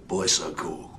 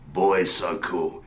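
First: The phrase is said quickly, run together. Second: The phrase is said at a normal pace.

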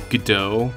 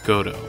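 First: The name is said the American way. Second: The name is said the Japanese way. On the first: It follows a later American habit. "that's how Americans, like, just decided it was pronounced" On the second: It follows the original Japanese name. "I'm gonna be pronouncing his name as Goto"

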